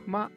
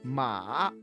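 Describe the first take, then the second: First: The syllable is said with a neutral tone. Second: The pitch dips down and then rises. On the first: "that is neutral tone" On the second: "First it will go down and then it will rise"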